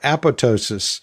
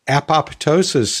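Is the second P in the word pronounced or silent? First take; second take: silent; pronounced. First: The second P sound is left silent. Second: The second P sound is clearly pronounced. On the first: "instead of keeping it silent like it, quote, is supposed to be pronounced" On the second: "when you pronounce the P"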